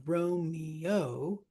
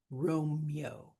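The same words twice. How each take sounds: First: "Romeo" drawn out as RO-mee-OH; three-syllable Romeo. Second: "Romeo" squished to ROME-yo; two-syllable Romeo. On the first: Teacher showing how a name scans, "Romeo" in three syllables. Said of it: "can be three syllables". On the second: Teacher showing elision, "Romeo" squished to two syllables. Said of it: "two syllables". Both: Shown as a demonstration.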